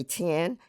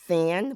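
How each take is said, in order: First: Thin said as tin, th made t. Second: Thin with a breathy th; standard thin. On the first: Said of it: "would say tin". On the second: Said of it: "Instead of saying thin". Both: Shown as a demonstration.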